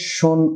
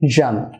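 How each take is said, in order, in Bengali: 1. ব্যঞ্জনটি একটি অঘোষ 'sh' ধ্বনি। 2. ব্যঞ্জনটি একটি ঘোষ 'zh' ধ্বনি। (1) "আমরা যেভাবে শোন উচ্চারণ করি তা কখনোই হবে না" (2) "হবে জান"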